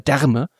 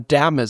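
First: The R is clearly and distinctly pronounced. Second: The R is softened and barely heard. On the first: The word is spoken over-carefully, as if unfamiliar. "Ich würde ja nie Därme sagen" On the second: This is the everyday way to say it. "Also ich würde ja immer Därme sagen"

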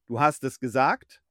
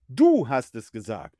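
First: The stress falls on the last word. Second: The stress falls on the first word. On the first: "mit Betonung auf gesagt?" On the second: "mit Betonung auf du"

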